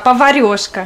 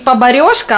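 First: The second consonant is a v sound. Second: The second consonant is a b sound. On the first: The speaker calls it right. "а поварешка" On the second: The speaker calls it wrong. "Не поборешка"

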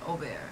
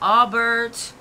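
First: The name is pronounced the French way. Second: The name is pronounced the American way. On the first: "If you go to France, they call me Aubert" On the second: "here in America, they call me Aubert"

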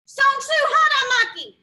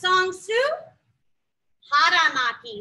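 First: It is said fast, as a command. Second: It is said slowly.

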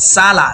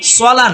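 First: The vowel after 's' is an open 'a'. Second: The vowel after 's' is rounded like 'o'. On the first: The speaker calls it right. "সিন জবর সা" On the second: The speaker calls it wrong. "সলা না"

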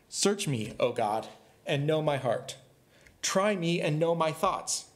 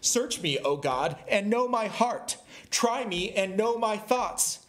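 First: It is read flatly, without exclamation. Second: It is read forcefully, as an exclamation.

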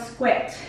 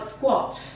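First: It is said with an American accent. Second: It is said with a British accent. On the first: "no americano eles falam squat" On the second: "em inglês britânico se fala squat"

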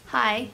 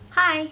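First: It is said in a plain voice. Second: It is said in a girly voice.

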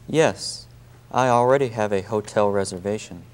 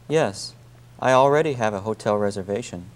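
The two takes are said the same way.

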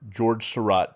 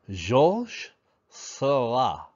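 First: The name is said with an American accent. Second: The name is said with a French accent. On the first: "is what Americans say" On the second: "The French say"

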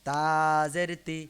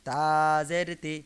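Both takes have the same delivery.

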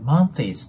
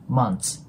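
First: An extra vowel is added after the th. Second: The word ends without any added vowel. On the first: The speaker calls it wrong. "monthies とかっていう感じで発音される方いるんですけど、そのようには発音しないんですね" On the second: The speaker calls it right. "そのまま日本語の2 のような感じでmonths"

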